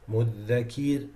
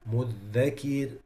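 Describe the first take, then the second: The two takes are said the same way.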